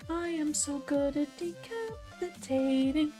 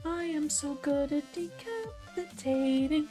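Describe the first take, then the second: First: The voice is thinner and held back. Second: The same.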